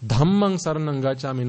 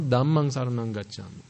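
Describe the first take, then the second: First: "Dhammang" opened with an aspirated dh; correct "Dhammang". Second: "Dhammang" opened with a plain d; mispronounced "Dhammang". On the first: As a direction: breathe out on the first sound of "Dhammang". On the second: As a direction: drop the aspiration from "Dhammang". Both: Shown as a demonstration.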